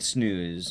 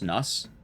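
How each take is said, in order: First: The vowel is long, like in snooze. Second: The vowel is short, rhyming with sus. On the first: The speaker calls it wrong. "It's not not quite snooze" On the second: The speaker calls it right. "It's snus"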